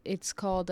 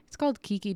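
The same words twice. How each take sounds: First: Said in the usual way. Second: Quick, laughing through the words. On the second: Real, not acted. Laughing as she names her own podcast title.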